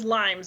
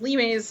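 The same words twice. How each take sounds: First: The word sounds like the English fruit name. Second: The word is said as a Latin word. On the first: The speaker calls it wrong. "a lot of people pronounce it as limes" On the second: The speaker calls it right. "it's the Roman word for boundary markers"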